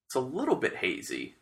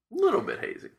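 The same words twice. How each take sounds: First: Said in the usual way. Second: "Little bit hazy" squeaked much higher, playful; high squeaky echo. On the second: Pretend. Repeats tasting note in new voice.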